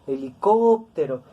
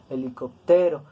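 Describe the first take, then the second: First: The stress is on the third-to-last syllable. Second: The stress is on the second-to-last syllable. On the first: The speaker calls it right. "nosotros pronunciamos helicóptero" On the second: The speaker calls it wrong. "no lo pronunciamos grave, no decimos helicóptero"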